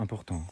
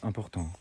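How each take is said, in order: First: All syllables have equal force and length. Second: All syllables have equal force and length.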